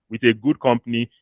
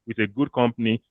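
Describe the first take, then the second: No difference in how they are said.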